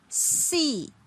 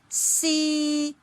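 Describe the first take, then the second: First: The pitch starts high and falls. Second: The pitch stays high and level. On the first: "This falling tone" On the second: "the starting and ending point lie on the highest level"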